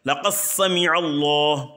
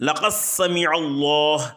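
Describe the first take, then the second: The two takes are said the same way.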